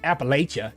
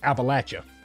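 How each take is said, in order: First: It uses the outsider's pronunciation of the name. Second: It uses the local hillbilly pronunciation of the name. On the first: The speaker calls it wrong. "It's not Appalachia" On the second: The speaker calls it right. "That's how you pronounce it if you're a true hillbilly"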